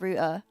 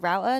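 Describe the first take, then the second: First: It is said with a British accent. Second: It is said with an American accent.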